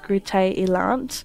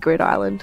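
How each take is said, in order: First: The name is pronounced with Dutch sounds. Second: The name is pronounced with English sounds. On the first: "the way to pronounce it in Dutch is Groote Eiland" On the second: "I just say Groot Island"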